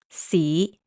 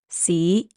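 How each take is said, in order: Both takes have the same delivery.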